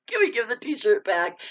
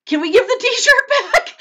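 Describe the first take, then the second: First: Said in the usual way. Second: High, loud, laughing through the question. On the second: Real, not acted. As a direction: laugh while asking it. Joking plea to Vern.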